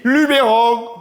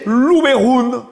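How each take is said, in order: First: It mixes French and Provençal pronunciation. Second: It is said with a Provençal pronunciation. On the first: The speaker blends the two languages. The speaker calls it wrong. "hors de question de fusionner le français et le provençal pour prononcer cette hérésie" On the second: The speaker chooses to speak Provençal. The speaker calls it right. "ou vous décidez de parler provençal et alors là, vous prononcez"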